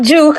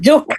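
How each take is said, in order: First: The vowel is long and drawn out. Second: The vowel is short and clipped. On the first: The speaker calls it wrong. "Not juke" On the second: The speaker calls it right. "You say it short"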